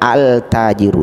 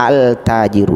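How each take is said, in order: First: The l of the article is pronounced. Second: The same.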